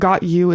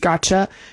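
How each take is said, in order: First: The T and Y sounds are said separately. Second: The T and Y blend into a ch sound.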